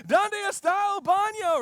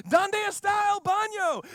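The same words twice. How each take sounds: First: High, loud panicked shout; hammed-up panicked tourist shouting, high and loud; mock frantic tourist. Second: High, loud panicked yelling; hammed-up panicked tourist, high and loud; mock frantic tourist. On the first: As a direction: shout it again running around in panic. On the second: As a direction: yell it like a lost American on a slide. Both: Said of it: "being like".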